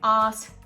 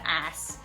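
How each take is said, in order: First: It is said with an Australian accent, no r. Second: It is said with an American accent, flat vowel. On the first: "switch from saying arse" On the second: "to ass"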